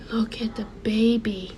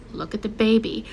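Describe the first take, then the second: First: Hushed whisper of realisation; soft whisper. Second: Said in the usual way. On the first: Retold or imitated. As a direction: breathe it out as the meaning dawns. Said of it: "I said". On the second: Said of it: "I remembered what he told me".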